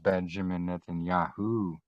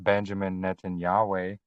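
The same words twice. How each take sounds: First: The ending sounds like 'Yahu'. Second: The ending does not sound like 'Yahu'. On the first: The speaker calls it right. "that's where we get Yahuwah" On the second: The speaker calls it wrong. "It's not"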